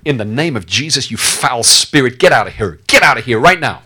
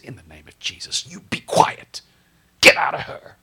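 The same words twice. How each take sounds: First: Rising thunderous command; commanding shout. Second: Low, hushed command, nearly whispered; soft firm whisper; quiet rebuke. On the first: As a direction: cast out the spirit at full voice. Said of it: "at the top of your voice". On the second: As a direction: turn and say it under your breath. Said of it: "Maybe he just turned to her and said". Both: Retold or imitated.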